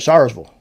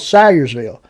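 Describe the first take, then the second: First: The name is said shortened. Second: The name is said in full. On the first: "some people say Sayersville" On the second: "there's a place called Salyersville"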